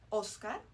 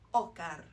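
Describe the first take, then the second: First: The s sound is clearly pronounced. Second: The s sound is weakened or dropped.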